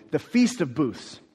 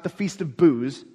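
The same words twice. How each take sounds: First: "Booths" said slowly with a th before the s; slow, careful "Booths"; careful pronunciation. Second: "Booze" with a z in place of the ths; mispronunciation. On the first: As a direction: keep the th in "Booths". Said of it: "That's a hard word to say". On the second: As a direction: let Booths slur into "Booze". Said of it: "It's not the Feast of Booze". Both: Shown as a demonstration.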